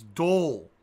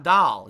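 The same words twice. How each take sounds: First: "doll" as "dole", rounded "oh"; supposedly correct "doll". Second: "doll" as "dahl", open and loud; rejected "doll" pronunciation. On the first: Streamer mock-correcting himself for viewers, rounded "dole". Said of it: "it's doll". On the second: Streamer mock-correcting himself for viewers, open "dahl". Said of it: "it's not doll". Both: Shown as a demonstration.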